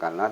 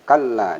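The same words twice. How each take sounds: First: The middle consonant is short, not doubled. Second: The middle consonant is doubled and held. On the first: The speaker calls it wrong. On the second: The speaker calls it right. "tapi kalla ada tasdid"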